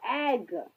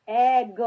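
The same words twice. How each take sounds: First: Said in the usual way. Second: Loud "एग" split into vowel and g; sounded out. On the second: Shown as a demonstration. Teacher breaking up egg for learners, loud split "एग". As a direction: punch out "एग" in two separate sounds. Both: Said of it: "ए की sound आ रही है".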